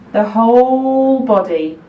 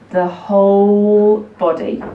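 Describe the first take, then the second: No difference in how they are said.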